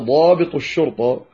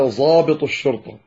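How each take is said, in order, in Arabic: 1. يُنطق الحرف ض بصوت الضاد الحقيقي. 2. يُنطق الحرف ض كصوت الظاء. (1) "بدل أن يقولوا أتانا ضابط الشرطة" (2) "ينطقون الضاد ظاء"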